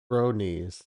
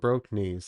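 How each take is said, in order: First: No k sound ends the first syllable. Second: A k sound ends the first syllable. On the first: The speaker calls it right. "it's bro knees" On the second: The speaker calls it wrong. "it's not even broke knees"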